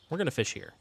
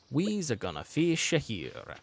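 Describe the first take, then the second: First: It is said in his ordinary speaking voice. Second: It is said in a put-on cartoon character voice.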